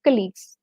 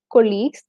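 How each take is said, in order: First: "colleagues" with a short, unstressed kuh at the start; correct colleagues. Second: "colleagues" with a full, louder CO at the start; mispronounced colleagues. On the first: Teacher correcting Malayali learners on colleagues, correctly said as "kuh-LEAGUES". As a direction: say "colleagues" as KUH-leagues, stress on the second part. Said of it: "which we Malayalis normally tend to pronounce". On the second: Teacher showing learners the wrong way to say colleagues, mispronounced with a long "koh". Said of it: "not as". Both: Shown as a demonstration.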